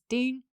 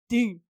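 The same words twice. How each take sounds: First: It is said in a high-pitched voice. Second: It is said in a lower voice.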